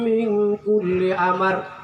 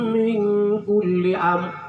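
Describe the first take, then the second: First: A vowel is sounded between the m and r. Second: No vowel is sounded between the m and r. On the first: The speaker calls it wrong. "tidak sempurna" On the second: The speaker calls it right. "Jangan dibaca amar"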